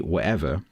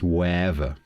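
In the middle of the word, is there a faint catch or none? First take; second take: faint catch; no catch. First: A very faint glottal catch replaces the middle T. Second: No consonant at all; the vowels glide together. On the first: "my glottal stop is almost non-existent. When I say whatever, it's almost not there" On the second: "It's almost a diphthong. It's almost wherever"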